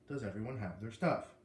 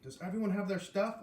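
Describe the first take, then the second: First: It is said in a calm, normal voice. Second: It is yelled loudly and excitedly.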